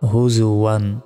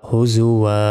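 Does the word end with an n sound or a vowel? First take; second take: n sound; vowel. First: The word ends with an n sound. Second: The word ends with a long vowel. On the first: The reading continues without stopping. "ওয়া দুই জবর ওয়ান" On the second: The reader stops at this word. "যদি থামি তাহলে উচ্চারণ হবে ওয়া আলিফ জবর ওয়া"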